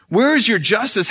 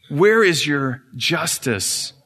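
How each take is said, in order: First: High cry. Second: Slow demand. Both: Acted. Satan demanding justice.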